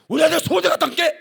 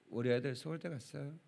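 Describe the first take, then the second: First: It is said excitedly at a raised pitch. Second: It is said calmly at a normal pitch.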